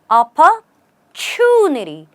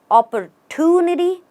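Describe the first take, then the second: First: The middle consonant sounds like ch. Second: The middle consonant is a plain t. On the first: The speaker calls it right. "the T becomes a ch" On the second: The speaker calls it wrong. "Usually you'll find people saying"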